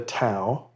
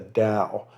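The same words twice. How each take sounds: First: The word begins with a T sound. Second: The word begins with a D sound. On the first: The speaker calls it wrong. "You shouldn't call it the Tao" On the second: The speaker calls it right. "You should call it the Tao, and Taoism with a D"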